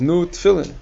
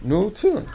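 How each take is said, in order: First: Higher, prodding "Nu tefillin"; a touch of an eager old-world man; urging foreign man. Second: Much higher, rising "Nu tefillin"; mock foreign man repeating, pitched up; insistent repeat. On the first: Retold or imitated. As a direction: push the offer on him. Man urging him to lay tefillin. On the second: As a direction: repeat it as if he didn't hear. Man repeating the offer louder.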